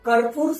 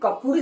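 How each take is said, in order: First: The word has an r sound before p. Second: The word has no r sound before p. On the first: The speaker calls it right. "કર્પૂર સાચો શબ્દ છે" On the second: The speaker calls it wrong. "કપૂર એ સાચો શબ્દ નથી"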